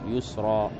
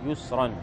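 First: The word ends with a long a vowel. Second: The word ends with an n sound. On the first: The speaker pauses on the word. "إذا وقفت عليها يتحول التنوين إلى ألف" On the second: The word is read in connected speech. "عند الوصل ستقرأ بالتنوين يسرا"

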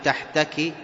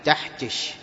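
First: The word ends with a k sound. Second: The word ends with a sh sound. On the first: The speaker calls it right. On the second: The speaker calls it wrong.

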